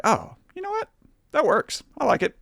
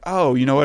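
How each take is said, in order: First: Much higher, light and breathy-sounding mock thought; lifted high falsetto quote of his own thought; high-pitched inner voice. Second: Said in the usual way. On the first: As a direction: squeak it out like a delighted little voice in your head. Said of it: "in a way that I was like". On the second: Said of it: "I really just was like".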